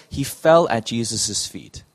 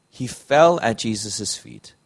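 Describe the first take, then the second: The two takes are said the same way.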